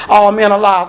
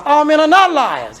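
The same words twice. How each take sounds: First: Said in the usual way. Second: Not leaned on and held; stress on not. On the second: Shown as a demonstration. Preacher correcting the psalmist to his congregation, stressing not. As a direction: press the word not hard to correct the quote.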